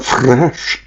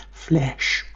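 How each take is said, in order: First: Fresh said with a clear r, fresh not flesh. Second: Flesh drawn out slowly with a clear l, not fresh. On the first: Set against flesh, he says fresh with an r. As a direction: shape the r in fresh, Scottish style. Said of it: "I'm not saying it fresh". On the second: To show it isn't fresh, says flesh slowly with an l. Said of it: "I'm saying flesh". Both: Shown as a demonstration.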